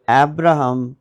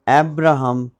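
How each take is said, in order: Both takes have the same delivery.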